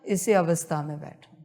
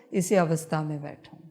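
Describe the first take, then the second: No difference in how they are said.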